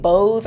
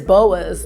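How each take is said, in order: First: It is said as one syllable, like Bose. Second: It is said as two syllables, like boa-s. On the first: The speaker calls it wrong. "was I thinking about a sound system?" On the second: The speaker calls it right. "like a boa constrictor"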